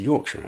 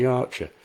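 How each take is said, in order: First: Said in the usual way. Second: A quick taste of Yorkshire accent. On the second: Shown as a demonstration. Author naming the accent, lightly imitated Yorkshire accent. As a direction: say "Yorkshire" as a Yorkshire local would.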